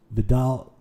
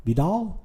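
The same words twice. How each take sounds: First: Said in the usual way. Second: Unsure, questioning "Vidal" with a lifted end; puzzled rising question. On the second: Shown as a demonstration. Streamer unsure how to say name.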